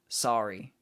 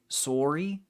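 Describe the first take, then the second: First: It is said with an American accent. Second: It is said with a Canadian accent. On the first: "instead of sorry. I say sorry" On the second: "you can really tell when somebody's Canadian if they say sorry"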